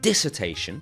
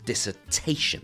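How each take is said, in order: First: The stress is not on the third syllable. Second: The stress is on the third syllable. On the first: The speaker calls it wrong. "it's not dissertation" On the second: The speaker calls it right. "it's dissertation. The stress is on the te"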